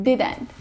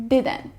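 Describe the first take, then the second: No difference in how they are said.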